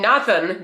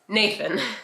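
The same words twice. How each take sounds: First: The name is said with an Indian pronunciation. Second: The name is said with an American pronunciation. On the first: The name as the parents intended. The speaker calls it right. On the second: The name made easier for others to say. The speaker calls it wrong.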